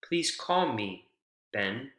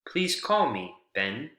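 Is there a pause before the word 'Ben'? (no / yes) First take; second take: yes; yes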